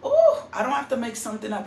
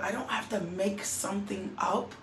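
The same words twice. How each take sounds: First: Louder, faster second take; ooh, I don't have to make something up, louder and faster; emphatic repeat. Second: Said in the usual way. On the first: Real, not acted. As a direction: press the point harder the second time.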